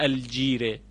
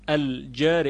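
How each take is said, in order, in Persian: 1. مصوت بلند به سمت صدای 'e' متمایل است. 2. مصوت بلند صدای 'a' باز است. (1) "اینو نخونده الجیره، اینطور نخونده" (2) "الجاری بالفتح خونده"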